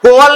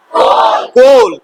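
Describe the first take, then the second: First: कोल misread with the A sounded, "ko-wal"; wrong coal. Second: कोल as one syllable, long "o" into l; silent A. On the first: Teacher checking students won't misread, कोल as "ko-wal". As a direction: say कोल in two syllables, "ko-wal". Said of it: "नहीं ना पढ़ दोगे?". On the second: Teacher giving the answer, कोल with silent A, "kohl". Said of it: "तो ए silent हो गया". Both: Shown as a demonstration.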